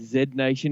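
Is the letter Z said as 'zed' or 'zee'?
zed. The letter is said 'zed', non-American style.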